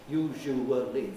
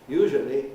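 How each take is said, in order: First: The word is said with four syllables. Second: The word is said with three syllables. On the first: The speaker calls it wrong. "old-fashioned and wrong to me to say usually. Usually. Four syllables" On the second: The speaker calls it right. "Usually is three"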